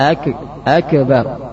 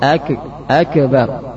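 First: The consonant is a k with a bounce. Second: The same.

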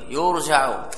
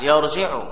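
First: The verb is voweled in the passive form. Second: The verb is voweled in the active form. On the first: The interpreter is referred to transmitted sources. "يرجع مغير الصيغة" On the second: The interpreter himself turns to transmitted sources. "ولا بأس أن تقرأه بناء الفاعل يرجع"

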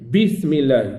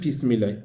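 First: The b is released with a strong lip burst. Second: The b is released with a weak lip burst. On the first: The speaker calls it right. "اصطدام قوي" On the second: The speaker calls it wrong. "ماشي بسم الله"

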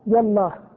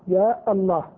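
First: Short ya runs straight into Allah, no glottal stop. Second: Long ya, then a glottal stop before Allah. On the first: "بحذف الألفين" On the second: "بإثبات الألف في ياء والهمزة في الله"

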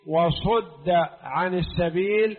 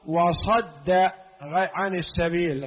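First: The verb is voiced with a 'u' vowel. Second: The verb is voiced with an 'a' vowel. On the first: He was turned away by another. "صده الله جل وعلا أو صده الشيطان" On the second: He turned away or turned others away. "هو صد عن السبيل أو هو صد غيره"

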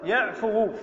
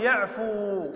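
First: The final waw carries a short 'u' vowel. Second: The final waw is silent, with no vowel after it. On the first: The speaker calls it wrong. "ولا نقول يعفو" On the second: The speaker calls it right. "لكن الواو لا نضمها بل ننطقها ساكنة"

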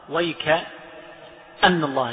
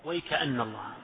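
First: There is a break right after 'wayk'. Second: The words run together with no break. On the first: "وقف على الكاف" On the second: "والباقون وصل"

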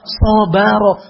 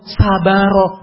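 First: The first vowel sounds darker, like 'o'. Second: The first vowel sounds like a plain 'a'. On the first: The speaker calls it right. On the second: The speaker calls it wrong. "Bukan sabaro"

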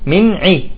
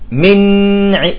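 First: The n sound is short and moves straight on. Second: The n sound is leaned on and held. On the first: The speaker calls it right. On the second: The speaker calls it wrong.

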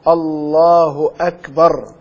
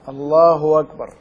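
First: The second word starts with a glottal stop. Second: The second word starts with a w-sound. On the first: "لا يستطيع النطق بها إلا المتعلم الفاهم" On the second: "الهمزة إذا جاءت بعد الضمة يجوز إبدالها واوا"

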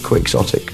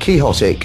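First: The word is not pronounced like the name Quixote. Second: The word is pronounced like the name Quixote. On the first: The speaker calls it right. "I believe the correct pronunciation is Quixotic" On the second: The speaker calls it wrong. "The temptation is always to pronounce it Quixotic after Don Quixote"

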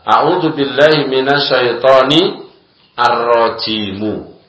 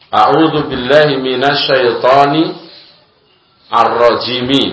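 First: The last word ends with a u vowel. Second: The last word ends with an i vowel. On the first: The word is a separate statement condemning the one named. "Dibaca ar-rajimu" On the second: The word simply describes the one named before it. "Asalnya kan mi"

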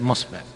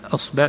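First: The word begins with an m sound. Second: The word begins with a glottal stop. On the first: "أصبع تصير مصبع، هذا في لغة تميم" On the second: "تميم في لغتها تقلب الهمز في بعض الأحيان ميم"

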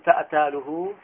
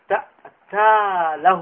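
First: The l sound carries a u vowel. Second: The l sound carries an a vowel. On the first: The l is part of the verb itself. "والأول بضم اللام" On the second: The l is a preposition meaning 'for him'. "تأتاله بفتح اللام"

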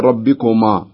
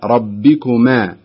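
First: The final 'ma' is said with a heavy, thick vowel. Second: The final 'ma' is said with a light, thin vowel. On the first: The speaker calls it wrong. "ما تقولي ربكما" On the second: The speaker calls it right. "لا ربكما، ترققينها لأن الميم مرققة والألف مرققة"

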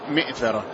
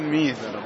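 First: The second sound is a glottal stop, no y glide. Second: The second sound is a y glide, no glottal stop. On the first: "لكن في الشرح قال مئثرة" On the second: "في المتن ميثرة بالياء"

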